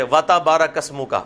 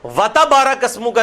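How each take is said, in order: First: وَتَبَارَكَ with the بَا held for two beats; صحیح تلفظ، با کو کھینچ کر; correct pronunciation. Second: وَتَبَارَكَ said quickly with the بَا clipped short; غلط تلفظ، جلدی میں; wrong pronunciation shown. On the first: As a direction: stretch the بَا in وَتَبَارَكَ properly. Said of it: "یہ وَتَبَا ہے". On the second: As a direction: rush through وَتَبَارَكَ as careless people do. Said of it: "نہیں ہے". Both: Shown as a demonstration.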